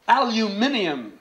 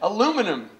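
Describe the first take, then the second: First: The word is pronounced the European way. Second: The word is pronounced the American way.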